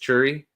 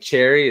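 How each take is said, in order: First: The first vowel sounds like 'er'. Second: The first vowel sounds like 'air'. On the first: This is how local people say it. "Or like cherry is churry" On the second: This is how the speaker normally says it. "Or like cherry is churry"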